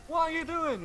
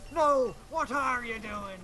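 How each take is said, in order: First: Much higher, excited question; squeaky high voice. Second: Slow, lightly voiced pirate reply; slow pirate retort. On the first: Retold or imitated. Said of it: "he goes". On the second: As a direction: drag it out like a pirate. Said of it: "He goes".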